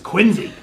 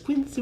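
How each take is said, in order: First: The middle consonant is a Z sound. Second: The middle consonant is an S sound. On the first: The speaker calls it right. "there's a hard Z in Quincy" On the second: The speaker calls it wrong. "it's not this Quincy"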